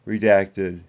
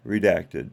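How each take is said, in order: Both takes have the same delivery.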